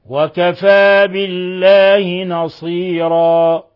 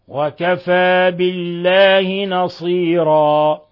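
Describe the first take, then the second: Both takes have the same delivery.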